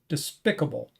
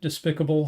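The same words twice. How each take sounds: First: The second syllable is stressed. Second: The second syllable is not stressed.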